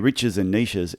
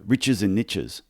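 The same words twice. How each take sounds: First: Niches does not rhyme, the Australian way. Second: Niches rhymes with riches, the American way.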